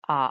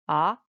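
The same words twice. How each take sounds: First: The pitch dips low, then rises. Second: The pitch rises from middle to high. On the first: "the third tone, it sounds like aha" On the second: "it's definitely a rise tone"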